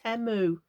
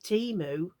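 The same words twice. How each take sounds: First: The first vowel is a short 'eh' sound. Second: The first vowel is a long 'ee' sound. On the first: "like temper or temperature, like eh rather than e" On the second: "I thought I'd been calling it Temu"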